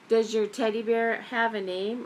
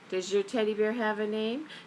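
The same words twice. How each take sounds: First: It is said louder. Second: It is said at normal, softer volume.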